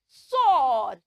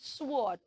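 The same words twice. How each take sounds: First: The W is silent, with no W sound. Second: The W sound is pronounced after the S. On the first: The speaker calls it right. "It has a silent W, so we will not say the W sound" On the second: The speaker calls it wrong. "we don't say sword"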